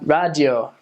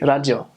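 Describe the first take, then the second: First: It is said with an American R sound. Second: It is said with a Japanese R sound.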